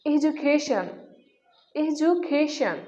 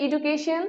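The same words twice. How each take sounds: First: এডুকেশন with a j sound, 'e-ju-KEI-shan'; corrected pronunciation. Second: এডুকেশন with a hard d, 'i-du-ke-shon'; common mispronunciation. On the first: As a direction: turn the d of এডুকেশন into 'ju'. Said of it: "যার সঠিক উচ্চারণ হচ্ছে". (এডুকেশন-এর শুদ্ধ উচ্চারণ, 'এজুকেইশন') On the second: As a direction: say এডুকেশন with plain 'du'. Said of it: "উচ্চারণটি ভুল". (এডুকেশন-এর ভুল উচ্চারণ, 'ইডুকেশন') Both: Shown as a demonstration.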